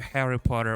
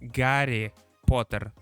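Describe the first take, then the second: First: The first name begins with a breathy H sound. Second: The first name begins with a hard G sound. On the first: "We don't call him Harry Potter" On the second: "We call him Gary Potter"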